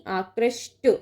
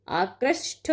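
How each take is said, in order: First: आकृष्ट ending in a dry ṭ; correct unaspirated ending. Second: आकृष्ट drawn out to a puffed ṭh; wrong aspirated ending. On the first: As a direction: say आकृष्ट as aakrashṭa, no aspiration. (आकृष्ट के अंत में ट की ध्वनि) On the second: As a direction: say आकृष्ट as aakrashṭha. (आकृष्ट के अंत में ठ की ध्वनि) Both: Shown as a demonstration. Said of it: "नहीं".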